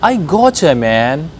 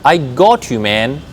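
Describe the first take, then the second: First: 'Got you' is blended into one word, 'gotcha'. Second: 'Got' and 'you' are said as separate words.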